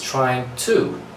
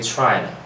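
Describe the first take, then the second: First: Both words are said in full, with a clear 'to'. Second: The 'to' is dropped and replaced by a schwa. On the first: "the complete form, right, the correct way is trying to" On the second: "We drop the to, right? We replace it with the schwa sound"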